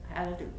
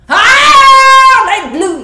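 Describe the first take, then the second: First: It is said calmly, with little emotion. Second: It is said loudly, with great emotion.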